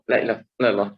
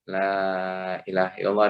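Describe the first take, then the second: First: The words are rushed and run together. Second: Each word is said slowly and distinctly. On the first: The words are said only to reach a count. The speaker calls it wrong. "ndak jelas lagi apa yang dibaca" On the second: The words are meant and felt. The speaker calls it right. "satu-satu tetapi betul-betul dimaknai"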